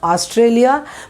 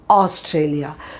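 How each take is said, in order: First: The first vowel is said without rounded lips. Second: The first vowel is a rounded, oval-mouthed aw. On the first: The speaker calls it wrong. "this is not Australia" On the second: The speaker calls it right. "but it is Australia"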